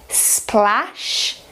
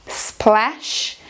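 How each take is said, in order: The two takes are said the same way.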